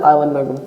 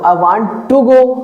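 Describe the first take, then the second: First: It is said quickly, in a shortened form. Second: It is said more slowly, fully pronounced.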